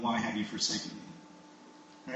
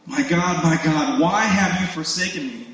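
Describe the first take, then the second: First: Very soft, low, slow lament; quiet plea of the forsaken; hushed cry to God. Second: Mild, acted cry from the cross; understated cry of abandonment. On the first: Acted. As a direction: say it slowly, almost under the breath. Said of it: "cry out to God". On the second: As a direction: call out to God with restrained force. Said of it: "he cries out from the cross".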